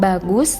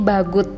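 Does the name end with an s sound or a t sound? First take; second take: s sound; t sound. First: The name ends with an s sound. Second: The name ends with a t sound. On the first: The speaker calls it right. "pelafalannya bukan bagus" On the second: The speaker calls it wrong. "tetapi menjadi bagut karena di belakangnya tidak ada vokal"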